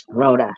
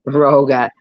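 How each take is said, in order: First: Rhoda with a clear d sound; correct name Rhoda. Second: Roga with a hard g, said loudly; wrong name Roga. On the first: Correcting her own slip, says Rhoda clearly. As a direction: say Rhoda properly, a crisp d in the middle. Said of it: "Rhoda, not Roga". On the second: Mocking her own slip, says Roga. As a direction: punch out Roga, g not d. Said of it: "not Roga". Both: Shown as a demonstration.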